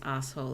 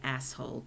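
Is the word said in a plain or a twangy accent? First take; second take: plain; twangy. First: It is said in a relaxed, untwanged accent. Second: It is said with a tight, twangy accent. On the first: "I am going to continue pronouncing this as asshole" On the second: "tighten up my voice quite so much to get that that wonderful twang"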